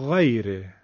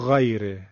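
First: The gh sound is soft and drawn out. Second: The gh sound is pressed hard, close to kh. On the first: The speaker calls it right. "نه، بگید غیره" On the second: The speaker calls it wrong. "زیاده، این خیلی فشاره، شبیه خ دیگه داره میشه"

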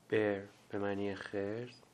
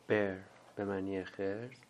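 Both takes have the same delivery.

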